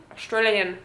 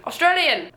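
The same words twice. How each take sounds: First: Put-on tentative go at an Australian accent; attempted Australian accent. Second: Higher-pitched, hammed-up Australian accent; bad Australian accent. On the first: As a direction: try out an Australian accent at normal pitch. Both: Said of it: "I can't do fucking accents".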